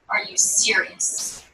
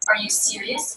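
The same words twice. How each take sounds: First: The pitch goes down at the end. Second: The pitch goes up at the end. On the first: It conveys a negative judgment. "Down in pitch, ... it is conveying a judgment" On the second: It shows openness and concern for the person. "A question going up in pitch conveys perhaps an open attitude"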